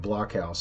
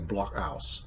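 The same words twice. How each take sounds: First: The middle consonant is a plain K sound. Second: The middle consonant is a glottal stop.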